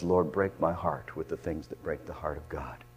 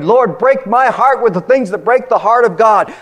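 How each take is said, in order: First: Soft, low murmured prayer; whispered plea to God; hushed prayer. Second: High, loud cry of the prayer; fervent preacher's plea; loud impassioned prayer. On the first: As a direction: breathe the prayer quietly. Same prayer, now hushed. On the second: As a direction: proclaim the prayer to the rafters. Prayer quoted in full-force preaching. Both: Acted.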